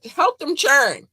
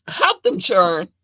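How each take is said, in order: First: Higher and louder, slow insistent repeat. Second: Slow, each word pressed out; slow emphatic. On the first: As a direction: say it again, pushing harder. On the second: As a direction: spell it out slowly for them. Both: Shown as a demonstration. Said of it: "I said".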